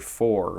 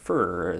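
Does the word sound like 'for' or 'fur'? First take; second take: for; fur. First: It is said with a full 'for' vowel. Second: It is said with a reduced 'fur' vowel. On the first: "most people in upstate New York don't say for" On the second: "we say fur"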